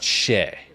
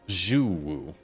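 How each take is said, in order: First: It begins with a plain 'sh' sound. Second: It begins with a buzzing 'zh' sound. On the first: The speaker calls it wrong. "X U is not she" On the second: The speaker calls it right. "almost like a Z H"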